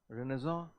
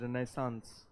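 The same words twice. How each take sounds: First: It is pronounced in a French-like way. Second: It is pronounced in an American way. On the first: "French word ... that's how I believe you know it's it's pronounced" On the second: "Americans uh, pronounce it as Renaissance"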